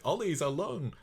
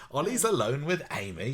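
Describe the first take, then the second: First: A mock Scottish cry of alarm; a slip into a high Scottish accent. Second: A mock British accent, high and alarmed. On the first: Mother panicking about her son, a mock Scottish cry. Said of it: "she's gone a bit Scottish there". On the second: Mother rushing to stop the couple, in a British accent. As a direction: redo the line in her best British accent. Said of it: "her best British accent".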